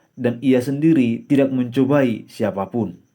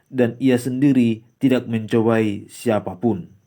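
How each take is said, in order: No difference in how they are said.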